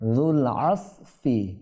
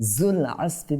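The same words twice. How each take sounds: First: The first word starts with a soft 'th' sound. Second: The first word starts with a 'z' sound. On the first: The speaker calls it right. "হ্যাঁ" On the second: The speaker calls it wrong. "বলা যাবে না"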